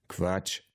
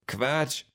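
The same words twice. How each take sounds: First: Quiet, unraised dismissal; Max. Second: Put-on high-pitched girl's dismissal; Luisa. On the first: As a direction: dismiss it softly at a normal pitch. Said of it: "sagte Max". (leise, trocken abgetan) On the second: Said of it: "sagte Luisa". (hoch abgetan, Mädchenstimme) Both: A narrator's reading.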